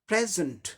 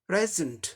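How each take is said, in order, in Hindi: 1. दूसरे अक्षर में घटा हुआ श्वा स्वर है। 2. दूसरे अक्षर में घटा हुआ श्वा स्वर है।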